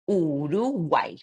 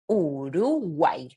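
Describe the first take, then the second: First: The name is said with Spanish vowel sounds. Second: The name is said with Spanish vowel sounds.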